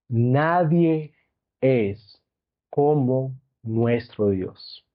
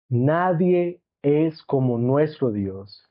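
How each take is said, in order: First: It is spoken at a slower, deliberate pace. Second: It is spoken at a faster, ordinary pace.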